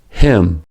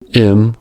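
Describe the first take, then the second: First: The word begins with an audible h. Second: The word begins without any h sound.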